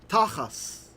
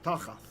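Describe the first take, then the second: First: The word ends with an s sound. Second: The word ends with a th sound. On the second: "This would be a th"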